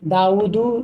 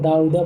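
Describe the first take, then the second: First: The name ends with an 'u' vowel. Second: The name ends with an 'a' vowel. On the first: Dawud is the one who did the killing. The speaker calls it right. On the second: Dawud becomes the one who was killed. The speaker calls it wrong.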